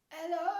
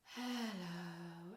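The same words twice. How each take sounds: First: It starts with a hard, cough-like onset. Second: It starts with a breathy, airy onset.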